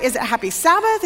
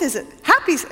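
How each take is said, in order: First: Weight on "Sabbath", questioning; unsure visitor testing stress on "Sabbath". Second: Unsure visitor testing stress on "happy". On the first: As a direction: lean on "Sabbath", leave "happy" light. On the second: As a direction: hit "happy" and break off. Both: Retold or imitated. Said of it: "Did I emphasize the right?".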